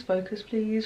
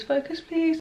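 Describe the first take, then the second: First: Said in the usual way. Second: Higher pleading plea. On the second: Real, not acted. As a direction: beg the camera, pitched up. Begging camera to focus.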